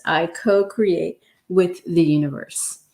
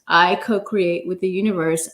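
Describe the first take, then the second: First: Whispered affirmation. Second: Said in the usual way. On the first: Shown as a demonstration. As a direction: whisper it, no voice at all. Third repeat of affirmation.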